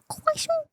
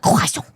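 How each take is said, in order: First: "croissant" the French way, pitched way up; corrected French pronunciation. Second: "croissant" mispronounced, loud and blunt; wrong pronunciation. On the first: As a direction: say "croissant" high, in a French manner. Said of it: "It's croissant". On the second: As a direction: say "croissant" loudly in a non-French way. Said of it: "it's not croissant". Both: Shown as a demonstration.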